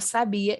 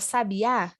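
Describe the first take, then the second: First: The stress is on the middle syllable. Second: The stress is on the last syllable. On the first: It is a form of the verb to know. "é uma forma conjugada do verbo saber" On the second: It names a kind of bird. "como o acento está lá na última letra"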